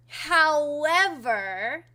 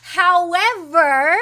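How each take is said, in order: First: Very slow, stretched-out "however"; lingering "however" that builds suspense; drawn-out however. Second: Loud, high, long-drawn HOWEVER; emphatic however. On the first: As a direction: draw "however" out even longer, less forcefully. Repeats it before the announcement. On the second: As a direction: proclaim "However" big, stretching it out. Teasing announcement after correcting himself. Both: Real, not acted.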